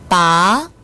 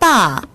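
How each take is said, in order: First: The pitch rises from mid to high. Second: The pitch falls sharply from high. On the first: It means to pull out. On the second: It means father.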